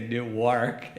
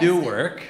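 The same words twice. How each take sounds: First: It is pronounced the Delaware way. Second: It is pronounced the New Jersey way. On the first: It names the town in Delaware. The speaker calls it right. "You got to say Newark" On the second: It names the city in New Jersey. The speaker calls it wrong. "you can't say Newark, or you'll be in New Jersey"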